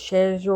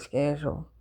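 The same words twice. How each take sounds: First: The word begins with an 'sh' sound. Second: The word begins with an 'sk' sound. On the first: Other English speakers say it this way. "sh- they say it's schedule" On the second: The speaker says it this way. "I say schedule"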